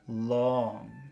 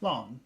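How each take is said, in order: First: The word is stressed and stretched out longer. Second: The word is said plainly at normal length. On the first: "Focus long" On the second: "So normal long"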